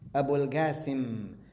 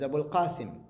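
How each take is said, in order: First: Qasim begins with a hard g sound. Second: Qasim begins with a deep throaty q sound. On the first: "like with a G, Ga" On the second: "he was Abul Qasim"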